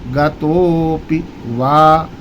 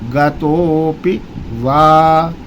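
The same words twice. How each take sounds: No difference in how they are said.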